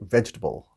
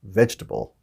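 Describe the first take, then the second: First: The word is squeezed into three syllables. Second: The word is squeezed into three syllables.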